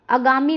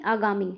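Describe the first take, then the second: First: आगामी as अगामी, short opening a; mistaken short vowel. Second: आगामी with long opening aa, lower; correct long vowel. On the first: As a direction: begin आगामी on a brief uh, pitched up. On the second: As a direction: say आगामी as AA-gaa-mee, settling down. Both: Shown as a demonstration. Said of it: "आगामी नहीं".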